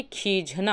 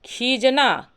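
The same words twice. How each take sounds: First: खीझना with an aspirated jh; correct form. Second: खीजना with a plain j, "kheejna"; no breath on the j of खीजना; wrong form. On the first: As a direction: breathe out on the jh of खीझना, "kheejhna". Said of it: "बल्कि खीझना होता है". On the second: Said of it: "खीजना नहीं होता". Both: Shown as a demonstration.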